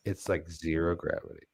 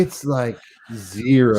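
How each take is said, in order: First: Hushed demo read. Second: High, slow, stretched-out words; drawn-out demo read. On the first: Host showing co-host another way to say it, hushed. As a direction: drop the voice right down, almost to yourself. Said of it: "Now say it like this". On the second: Host showing co-host how to say it, drawn out and high. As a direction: draw each word out up high, with ZERO held long. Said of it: "now say it like this". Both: Shown as a demonstration.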